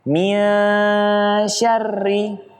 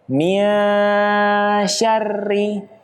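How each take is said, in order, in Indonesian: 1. Huruf n tersembunyi dan samar menjadi sh. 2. Huruf n tersembunyi dan samar menjadi sh.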